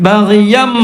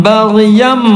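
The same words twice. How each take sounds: The two takes are said the same way.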